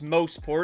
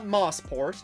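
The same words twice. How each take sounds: First: The first syllable sounds like 'mow'. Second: The first syllable sounds like 'moss'. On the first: The speaker calls it right. "it's pronounced Mosport" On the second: The speaker calls it wrong. "not Mosport"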